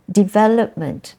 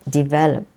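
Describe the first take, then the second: First: "Development" higher, as de-VEL-op-ment; stress in noun form. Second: "develop" as de-VEL-op; stress second syllable. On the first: Teacher shows how the stress changes slightly, stress in noun form. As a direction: raise the pitch and lean on VEL in "Development". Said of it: "the stress is, changes slightly". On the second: Teacher repeats the verb for students, stress second syllable. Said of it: "stress is in the second syllable". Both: Shown as a demonstration.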